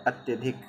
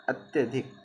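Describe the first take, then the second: The two takes are said the same way.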